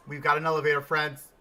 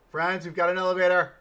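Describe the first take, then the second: First: Louder, pleased news for the friends; excited announcement. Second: Louder, higher, fast triumphant call; excited shout. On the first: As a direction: announce it with a grin. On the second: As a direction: shout the news to the friends. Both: Real, not acted.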